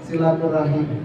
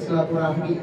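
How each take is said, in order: First: The word ends with the sounds 'rahim'. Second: The word ends with the sounds 'rahmi'. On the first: The speaker calls it right. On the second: The speaker calls it wrong. "bukan silaturahmi"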